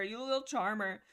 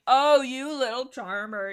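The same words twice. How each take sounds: First: Said in the usual way. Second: Slow, loud, swooning gush; drawn-out gush over a flirt; mock swoon. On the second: Real, not acted. Fan swooning loudly over Firestar's sweet talk.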